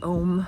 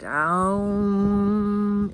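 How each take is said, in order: First: The vowel is a single plain O sound. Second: The vowel glides from an A into a U. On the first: The speaker calls it wrong. "We in the West usually pronounce it Om" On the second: The speaker calls it right. "from scripture it's pronounced Aum"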